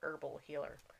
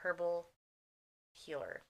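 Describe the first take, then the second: First: Herbal starts with a silent h. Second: Herbal starts with an audible h sound. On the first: It means a healer who uses herbs. The speaker calls it right. "Or herbal healer" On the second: It sounds like healing a man named Herb. The speaker calls it wrong. "otherwise she's just healing a guy named Herb"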